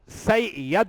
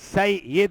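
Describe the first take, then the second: First: The vowel after the double y is 'a'. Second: The vowel after the double y is 'i'. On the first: The speaker calls it wrong. "सैयद नहीं है" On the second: The speaker calls it right. "बल्कि सैयद है अरबी में"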